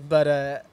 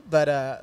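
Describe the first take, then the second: No difference in how they are said.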